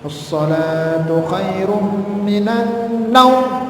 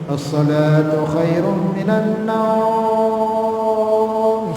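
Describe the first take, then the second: First: The final word naum is kept short. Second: The final word naum is drawn out long. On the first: The speaker calls it right. "naumnya itu jangan dipanjangkan" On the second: The speaker calls it wrong. "Kalau naumnya dipanjangkan"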